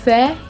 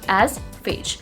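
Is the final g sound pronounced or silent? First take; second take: silent; pronounced. First: The final g sound is silent. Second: The final g sound is pronounced. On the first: The speaker calls it right. "The correct pronunci- pronunciation of this word is faye" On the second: The speaker calls it wrong. "the way we see the spelling ... but it's wrong"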